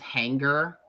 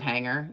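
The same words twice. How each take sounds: First: A hard g is sounded after the ng. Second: No hard g is sounded after the ng. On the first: It imitates how someone else says it. "he also like pronounces G's hard. Like he says hanger" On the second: It is the usual way of saying it. "instead of"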